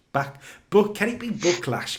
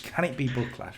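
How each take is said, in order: First: Excited pun. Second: Said in the usual way. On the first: Acted.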